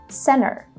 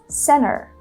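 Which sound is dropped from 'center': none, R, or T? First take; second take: T; T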